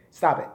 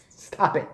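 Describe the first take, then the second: First: Said in the usual way. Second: "Stop it." breathed out unvoiced through a laugh; whispered laughing stop it. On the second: To himself, amused, a whispered laughing "Stop it.".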